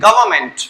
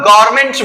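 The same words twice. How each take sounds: First: It is said English-style, sounding the v clearly. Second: It is said with Hindi-style pronunciation. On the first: "English में प्रोनाउंसिएट करते हो तो वी का उच्चारण" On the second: "गवर्नमेंट को आप लोग गवर्नमेंट बोलते हो, हिंदी में बोलना बिल्कुल सही है"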